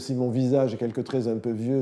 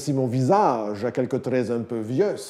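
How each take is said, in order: First: Final consonants of words are left silent. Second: Final consonants of words are pronounced aloud.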